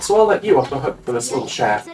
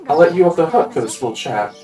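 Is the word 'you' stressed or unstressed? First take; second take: stressed; unstressed. First: The word 'you' carries strong stress. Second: The word 'you' carries no special stress.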